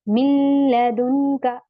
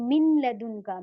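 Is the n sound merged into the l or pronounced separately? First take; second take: merged; pronounced. First: The n is merged into the following l. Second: The n is pronounced separately before the l. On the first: The speaker calls it right. "मिन नून हमारा छुप जाएगा" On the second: The speaker calls it wrong. "मैं यहाँ पे ऐसे नहीं बोल रही"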